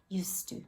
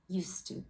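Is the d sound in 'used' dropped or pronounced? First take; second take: dropped; dropped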